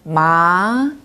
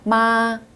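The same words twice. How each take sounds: First: The pitch rises smoothly from mid to high. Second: The pitch stays high and level throughout. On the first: It means hemp fabric. "부드럽게 한 미에서 솔까지 올라가는 음" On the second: It means mother. "높고 균일하게 쭉 발음하시면 됩니다"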